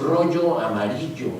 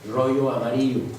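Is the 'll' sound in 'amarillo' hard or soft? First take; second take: hard; soft. First: The y sound in amarillo is strong and hard. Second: The y sound in amarillo is soft and light. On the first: This is how someone from Mexico City says it. "la ya es fuerte" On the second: This is how someone from Sonora says it. "en Sonora es más suave"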